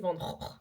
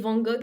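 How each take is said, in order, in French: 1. Ça se dit avec une prononciation néerlandaise. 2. Ça se dit avec une prononciation française.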